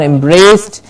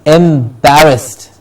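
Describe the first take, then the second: First: "embraced" run together as two syllables; "embraced" with long AY, no middle syllable; wrong pronunciation. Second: "embarrassed" slowly in three syllables; drawn-out "embarrassed" with open A; correct pronunciation. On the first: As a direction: say "embraced" as em-BRAYST. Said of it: "It's not embraced". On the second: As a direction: say "embarrassed" as em-BA-rust. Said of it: "it is embarrassed". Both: Shown as a demonstration.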